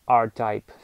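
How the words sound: The name is said with English sounds.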